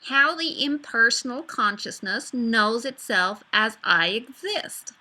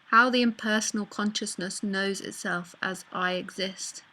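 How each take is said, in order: First: It is spoken in a Californian American accent. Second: It is spoken in the speaker's usual accent.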